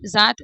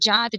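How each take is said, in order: First: The word begins with a 'z' sound. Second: The word begins with a 'j' sound. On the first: The speaker calls it right. "नुक्ता लग गया, अभी से आप पढ़ेंगे" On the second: The speaker calls it wrong. "सुनने में ही कितना अजीब लगता है ना"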